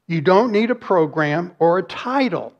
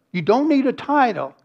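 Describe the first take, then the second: First: Said in the usual way. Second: Need pushed up high, then falls; stress on need. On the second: Real, not acted. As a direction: lean hard on need. Repeats the point, then narrows it.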